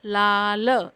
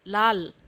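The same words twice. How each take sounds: First: लाल stretched into "laa-la"; sounded-out pronunciation. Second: Said in the usual way. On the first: Shown as a demonstration. Teacher showing how it is read, लाल split "laa-la". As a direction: sound out लाल slowly in two parts. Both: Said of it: "तो उसका उच्चारण होगा".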